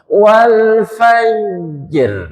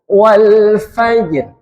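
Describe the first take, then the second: First: The j is drawn out before the r. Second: The j is cut short, going straight into r. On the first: The speaker calls it wrong. "Atau agak niki dijadikan rohwa semua" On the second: The speaker calls it right. "Berarti lah nggak ada ekornya, r-nya langsung"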